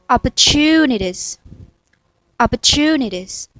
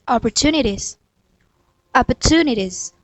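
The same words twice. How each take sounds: No difference in how they are said.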